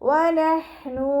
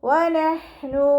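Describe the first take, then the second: Both takes have the same delivery.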